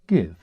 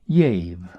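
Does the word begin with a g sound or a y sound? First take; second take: g; y. First: The word begins with a hard g sound. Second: The word begins with a y sound. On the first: This is the modern pronunciation. "or as we now pronounce it" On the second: This is an old southern pronunciation. "the southern pronunciation of a G, as in yave"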